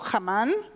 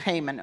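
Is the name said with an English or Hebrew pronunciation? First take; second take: Hebrew; English. First: It is said with a Hebrew pronunciation. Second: It is said with an English pronunciation. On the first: "we say in Hebrew" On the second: "but in English it's"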